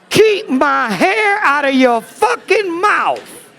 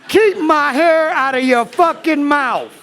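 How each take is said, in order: First: It is said at a normal pace. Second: It is said quickly.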